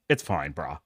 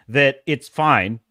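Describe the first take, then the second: First: Much lower, softer, lazy-bro voice; mock dude voice. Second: Said in the usual way. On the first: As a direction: drop the voice low and mock it like a careless bro. Mocking the excuse.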